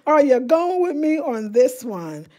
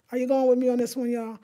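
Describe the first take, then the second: First: Loud, slow, every word leaned on; emphatic re-ask. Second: Said in the usual way. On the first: Real, not acted. Vlogger pressing viewers to join her plan, loud and emphatic. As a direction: ask it big and deliberate, spacing out the words. Repeats question to rally viewers.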